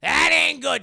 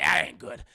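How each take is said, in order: First: Much higher, louder "That ain't good"; emphatic warning. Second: Said in the usual way. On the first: Real, not acted. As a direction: hammer home the warning. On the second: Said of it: "That ain't good, Chad".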